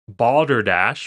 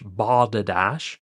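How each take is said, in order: First: The r after the vowel is pronounced. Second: The r after the vowel is dropped.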